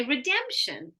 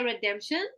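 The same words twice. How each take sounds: First: "redemption" with DEM standing out; syllable stress. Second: "redemption" without a punch on DEM; level out the syllables of "redemption"; misplaced, even stress. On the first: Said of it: "We're gonna say redemption". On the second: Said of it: "We're never gonna say". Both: Shown as a demonstration.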